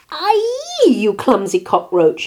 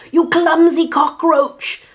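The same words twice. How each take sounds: First: High yelp dropping into a loud scolding; angry shout. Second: High, loud, slow screech; furious lizard. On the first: Rooster has coffee spilled on him, angry shout. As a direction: cry out, then scold loudly. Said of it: "he shouted". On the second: Lizard scolds Martina for spilling, furious screech. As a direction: screech each word in outrage. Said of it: "hissed Don Lagarto". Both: A narrator's reading.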